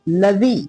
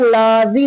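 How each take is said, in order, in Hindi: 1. L के बाद वाले स्वर को जल्दी, छोटा बोला जाता है। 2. L के बाद वाले स्वर को लंबा खींचा जाता है। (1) "लाम को जल्दी पढ़ा जाएगा" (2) "लाजी नहीं पढ़ेंगे"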